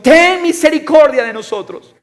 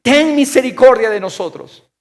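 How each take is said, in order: First: Very high, loud cry for mercy; loud, soaring appeal; exclaimed plea. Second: Loud, high plea for mercy; crying out. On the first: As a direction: shout the plea at full voice. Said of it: "está en exclamación". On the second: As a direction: beg aloud, voice raised. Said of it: "gritando y diciendo". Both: Acted.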